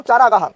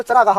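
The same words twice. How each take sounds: First: चारागाह with a long first aa; wrong form demonstrated. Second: चरागाह with a short first a; correct form demonstrated. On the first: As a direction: say चारागाह as "chaa-raa-gaah". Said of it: "गलत होता है". (चारागाह में पहला "चा" लंबा) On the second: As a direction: say चरागाह as "cha-raa-gaah". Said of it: "शुद्ध शब्द चरागाह होता है". (चरागाह में पहला "च" छोटा) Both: Shown as a demonstration.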